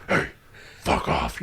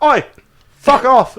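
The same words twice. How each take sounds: First: Low-volume raspy threat, hammed up; mock-menacing Batman voice; Batman-like growl. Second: Loud, high mock-British heckle; exaggerated British street shout; British accent. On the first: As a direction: growl it like a menacing tough guy. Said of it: "Batman and". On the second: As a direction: call out like a cheeky Brit. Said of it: "A British person can come up".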